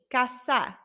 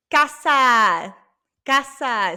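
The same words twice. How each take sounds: First: Said in the usual way. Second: Loud model word. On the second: Shown as a demonstration. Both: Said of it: "Say it with me".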